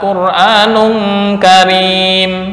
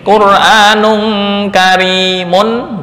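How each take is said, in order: First: The last word ends on a bare m sound. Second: The last word ends with a nasal -un ending. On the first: This is the form read when stopping. "dibaca Qur'anun karim" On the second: This is the form read without stopping. "seperti Qur'anun karimun"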